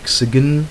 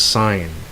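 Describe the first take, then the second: First: A hard G sound is pronounced inside the word. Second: No G sound is pronounced inside the word. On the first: The speaker calls it wrong. "you don't say" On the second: The speaker calls it right. "of course, it's sign"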